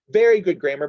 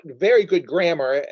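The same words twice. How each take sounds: First: "very" louder, leaning into "very good grammar"; stress on very. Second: Said in the usual way. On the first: Shown as a demonstration. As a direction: press "very" hard, louder than the words around it.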